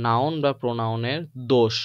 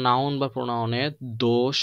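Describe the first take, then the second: No difference in how they are said.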